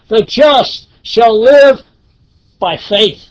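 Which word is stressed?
faith. The stress falls on the word faith. The focus is on faith as the means. "the emphasis is on the last portion there"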